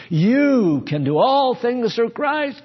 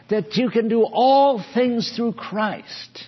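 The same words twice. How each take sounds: First: "You" stretched out loud and high; loud, slow exhortation leaning on "You"; stress on You. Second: Said in the usual way. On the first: Shown as a demonstration. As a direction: hit "You" hard and long, then keep shouting. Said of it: "where the accent is. You, not Christ". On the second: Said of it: "You know where the accent is".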